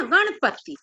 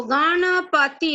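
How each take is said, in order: First: Said in the usual way. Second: गणपति as "gaa-na-paa-ti", every vowel drawn out; wrong full-vowel reading. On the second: Shown as a demonstration. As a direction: stretch each syllable of गणपति. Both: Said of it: "ऐसे नहीं बोलते ना".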